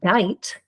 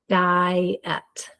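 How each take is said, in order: First: The vowels are read as one long I. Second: The vowels are read as two separate sounds. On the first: The speaker calls it wrong. "or I" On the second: The speaker calls it right. "we divide between the two vowels"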